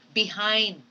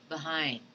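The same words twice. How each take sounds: First: The first vowel is a full, clear vowel. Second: The first vowel is a weak uh sound. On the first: The speaker calls it wrong. "You do not say behind" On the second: The speaker calls it right. "but you have to say behind ... the unaccented schwa should come in"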